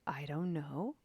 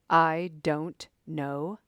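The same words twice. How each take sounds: First: It is said inquiringly, rising like a question. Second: It is said in a hard, militant tone. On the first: "Maybe there's a little bit of inquiry, question mark on the end" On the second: "Are you saying it in a militant way?"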